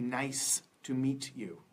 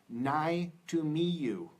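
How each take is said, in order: First: The final consonant sounds are clearly pronounced. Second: The final consonant sounds are dropped. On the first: The speaker calls it right. "should be" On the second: The speaker calls it wrong. "when I meet a Vietnamese person and they say"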